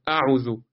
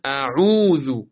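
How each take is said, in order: First: اعوذو with a short عو; no stretch. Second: اعوذو with عو held long; slow اعوذو, draw out the عو; stretched vowel. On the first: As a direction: say اعوذو quickly through, no held vowel. (اعوذو بدون کشش) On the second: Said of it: "میکشم". (عو در اعوذو را بکش) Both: Shown as a demonstration.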